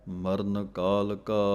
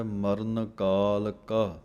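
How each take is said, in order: First: Said in the usual way. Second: ਕਾਲ and ਕਾ kept apart, slow; separate ਕਾਲ and ਕਾ. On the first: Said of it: "ਪਾਠ ਕੱਸ ਕੇ ਬੋਲਣਾ ਹੈ". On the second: Shown as a demonstration. Teacher shows students ਮਰਨ ਕਾਲ ਕਾ with ਕਾਲ and ਕਾ apart. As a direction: say ਕਾਲ, then ਕਾ on its own. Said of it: "ਕਾਲ ਵੱਖਰਾ ਪੜ੍ਹਨਾ ਹੈ, ਕਾ ਵੱਖਰਾ".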